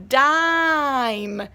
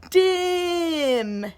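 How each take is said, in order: First: Dime said slowly, stretching the long i. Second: Dim with a short clipped i sound. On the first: Teacher modeling a long-vowel word. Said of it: "this one is a long I". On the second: Teacher sounding out a short-vowel word. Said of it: "this one's gonna say". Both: Shown as a demonstration.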